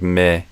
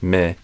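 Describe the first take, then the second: The two takes are said the same way.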